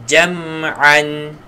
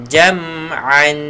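The two takes are said the same way.

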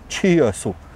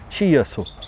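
No difference in how they are said.

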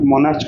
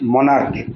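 First: The word ends with a 'ch' sound. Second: The word ends with a 'k' sound. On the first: The speaker calls it wrong. "উচ্চারণ মনার্চ করলে হবে না" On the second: The speaker calls it right. "উচ্চারণ হচ্ছে মনার্ক"

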